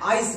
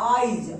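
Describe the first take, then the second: First: It ends with a hissing s sound. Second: It ends with a buzzing z sound. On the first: The speaker calls it wrong. "I E S এর জন্য আইস উচ্চারণ হবে না" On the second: The speaker calls it right. "এর উচ্চারণটা আমার আমার হয়ে যাবে আইজ"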